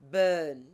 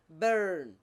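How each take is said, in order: First: The R after the vowel is not pronounced. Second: The R after the vowel is clearly pronounced. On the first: "but normally it should be burn" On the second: "Wherever R appears, they pronounce R. So you hear"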